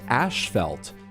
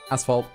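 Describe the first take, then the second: First: The first syllable sounds like 'ash'. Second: The first syllable sounds like 'ass'. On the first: This is a pronunciation the speaker recently learned. "which I've recently learned is pronounced ashfelt" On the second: This is the speaker's own usual pronunciation. "as I would say it"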